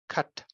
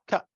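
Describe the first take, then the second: First: The final t is closed and then audibly released. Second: The final t is replaced by a glottal stop. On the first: "but not cut" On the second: "you can also just have the glottal stop"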